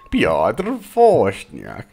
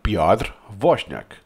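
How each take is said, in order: First: The name is said with American English pronunciation. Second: The name is said with Polish pronunciation. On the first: "The Americanized way" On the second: "That's my best uh, try"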